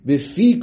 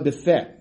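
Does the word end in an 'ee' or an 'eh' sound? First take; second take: ee; eh. First: The word ends in an 'ee' sound. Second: The word ends in an 'eh' sound. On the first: The speaker calls it right. "Bifi kol chai, v'loi bife" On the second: The speaker calls it wrong. "v'loi bife"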